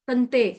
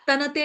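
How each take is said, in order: First: The middle n joins straight onto the t. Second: A full vowel follows the middle n. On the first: The speaker calls it right. "तंते के अंदर जो न लिखा है वो आधा न है" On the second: The speaker calls it wrong. "ये तनते नहीं बोलेंगे"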